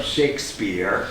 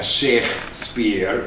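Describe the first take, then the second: First: Said in the usual way. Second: "Shakespeare" split in two, as Sheikh, pause, speare; punning pronunciation. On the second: Shown as a demonstration. Presenter joking that "Shakespeare" is Arabic, punning split into Sheikh and Speare. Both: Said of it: "I shouldn't make a joke".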